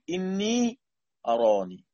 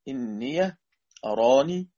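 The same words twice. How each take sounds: First: The word 'inni' ends in a plain long 'ee'. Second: The word 'inni' ends with an added 'ya' sound. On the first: "وخرج ابن كثير" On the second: "فتحها نافع وأبو عمرو"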